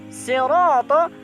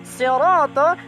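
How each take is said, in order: Both takes have the same delivery.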